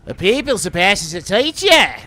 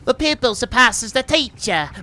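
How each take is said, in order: First: It is said in a put-on Australian accent. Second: It is said in the speaker's plain accent.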